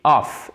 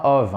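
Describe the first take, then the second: First: "off" ending in a crisp unvoiced F sound; double-F off. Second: "of" ending in a buzzing V sound; wrong voiced ending. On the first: Teacher contrasts it with of, "off" with a clear F. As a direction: say "off" with an f, not a v. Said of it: "Il y a deux F là". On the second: Teacher shows what off is not, "of" with a V. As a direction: say "of" with v in place of f. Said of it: "et pas of". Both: Shown as a demonstration.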